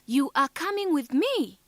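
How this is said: The voice rises at the end. It is a question. "Rising intonation"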